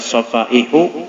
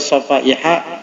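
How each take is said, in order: First: The word ends with a u vowel. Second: The word ends with an a vowel. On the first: The word is the subject of the passive verb. "Boleh dibaca safaihu, jadi naibul fa'ilnya suffihat" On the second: The word is the second object of the verb. "Boleh dibaca safaiha, jadi maf'ul tsaninya"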